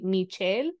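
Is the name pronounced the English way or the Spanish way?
Spanish. The name is said with a Spanish pronunciation. This is how the Spanish-speaking family says it. "my mom spoke Spanish, obviously, ... so they would say Michelle"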